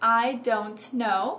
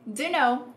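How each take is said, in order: First: The t sound is clearly pronounced. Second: The t is dropped in a reduced form. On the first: "pronunciando os T's" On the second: "usando a contração informal"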